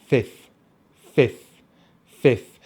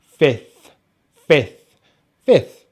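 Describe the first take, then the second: First: "fifth" said as "fif", ending on F; final TH left off. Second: "fifth" as F, short I, F, then TH; full careful "fifth", short vowel and TH ending; complete with TH. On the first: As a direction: say "fifth" as just F, short I, F. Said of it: "and then another F". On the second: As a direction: finish "fifth" on a TH after the second F. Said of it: "we finish on the T H sound". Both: Shown as a demonstration.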